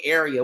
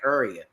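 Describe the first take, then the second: First: It is said with standard pronunciation. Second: It is said the local DC way.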